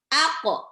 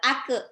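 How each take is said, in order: First: The q bounce ends in an o-like vowel. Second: The q bounce ends in an e-like vowel. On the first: The speaker calls it right. "Qaf itu pantulnya harus ke ko" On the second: The speaker calls it wrong. "bukan ke ake"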